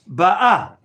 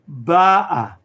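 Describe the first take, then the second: First: The stress is on the last syllable. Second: The stress is on the first syllable. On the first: She is coming. "The former one was pronounced ba'a, present tense" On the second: She came. "the cantillation sign is on the first consonant, the letter bet, and therefore that letter will be accentuated"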